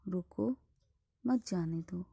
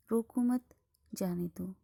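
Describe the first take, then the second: First: रोको said alone, a clear pause, then मत जाने दो run together; pause after रोको. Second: रोको मत joined and louder, a clear pause, then जाने दो; pause after मत. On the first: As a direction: break right after रोको, keep मत with जाने दो. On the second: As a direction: break after मत, keep रोको मत together. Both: Shown as a demonstration. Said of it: "अर्थ को समझने में कठिनाई आ जाती है".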